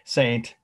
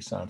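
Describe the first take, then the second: First: The word is pronounced the English way. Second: The word is pronounced the French way. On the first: "let's just say it our way" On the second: "the French would say Saint"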